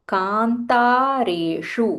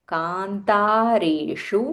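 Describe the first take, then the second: The two takes are said the same way.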